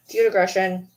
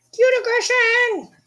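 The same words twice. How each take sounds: First: Said in the usual way. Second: Drawn-out, very high squeal; cute aggression. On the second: Real, not acted. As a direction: let affection burst out in a long squeal.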